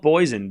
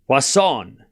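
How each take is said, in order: First: The middle consonant sounds like a Z. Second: The middle consonant sounds like an S. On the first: The speaker calls it wrong. "it's not poison because I said that and somebody yelled at me" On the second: The speaker calls it right. "It's more S than Z"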